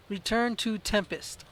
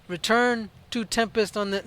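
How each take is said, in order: First: "Return to Tempest" read out slowly, word by word; slow careful reading. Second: Said in the usual way. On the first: Shown as a demonstration. Player reading the game's objective aloud, slowly. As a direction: spell out each word as you read it off the screen. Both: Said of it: "let's read it this time".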